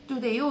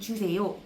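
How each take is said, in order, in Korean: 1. 이 단어는 아이처럼 불분명하게 발음됐어요. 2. 이 단어는 명확하고 또박또박 발음됐어요. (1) "이 발음이 틀릴 때마다" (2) "아니, 주세요"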